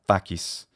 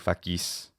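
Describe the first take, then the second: First: The stress is on the first syllable. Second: The stress is on the second syllable.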